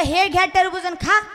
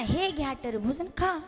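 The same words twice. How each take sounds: First: "खा" lifted into a loud questioning rise; disapproved delivery. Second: Softer, lower offer with "खा" falling away; corrected stingy delivery. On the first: Father mocks son's too-generous offer, loud with rising "खा". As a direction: throw out the whole offer openly, ending up on "खा". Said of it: "असं म्हणत असत का". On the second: Stingy father shows son how to offer, hushed falling "खा". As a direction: hold the offer back, letting "खा" drop quietly. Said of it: "असं म्हणायचं ना". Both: Acted.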